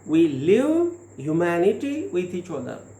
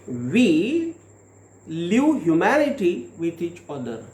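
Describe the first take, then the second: First: The word "live" carries the main stress. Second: The word "we" carries the main stress. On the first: The focus is on actually living humanity. "now we are giving the stress on live" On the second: It is we people who live humanity. "pronounce the sentence by giving the stress on we"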